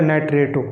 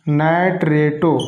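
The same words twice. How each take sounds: First: Said in the usual way. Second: नाइट्रेटो stretched slowly, syllable by syllable; teacher dictating नाइट्रेटो slowly to students; slow, drawn out. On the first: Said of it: "फिर क्या है?". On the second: Shown as a demonstration. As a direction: spell out नाइट्रेटो slowly for the class to copy. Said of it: "इसका special नाम पड़ेगा".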